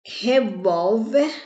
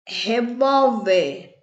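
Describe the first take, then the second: First: Said in the usual way. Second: "Revólver" slowly, VÓL lengthened, falling at the end; stress on VÓL. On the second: Shown as a demonstration. Teacher finding the strong syllable, "Revólver" slow with stressed VÓL. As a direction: stretch out "Revólver", leaning on VÓL. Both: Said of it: "A sílaba mais forte".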